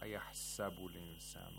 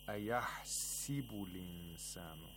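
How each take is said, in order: First: The vowel after the h is a. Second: The vowel after the h is i. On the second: "Instead of a fatha, it gives a kasra to the seam"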